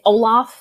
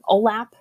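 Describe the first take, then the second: First: It is said like the name Olaf. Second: It is not said like the name Olaf. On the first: The speaker calls it wrong. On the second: The speaker calls it right.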